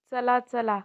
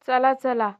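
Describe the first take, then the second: First: Said in the usual way. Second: Loud hurry-up call; urging call. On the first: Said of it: "repeat drill, second take". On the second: Shown as a demonstration. Teacher hurries the children along, loud. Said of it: "repeat drill, first take".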